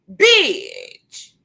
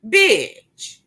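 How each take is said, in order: First: BITCH pitched high, swooping down; high, drawn-out, falling BITCH; exasperated outburst. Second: Said in the usual way. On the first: Real, not acted. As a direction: stretch BITCH out from a high start with a long fall. Repeats insult higher, drawn out.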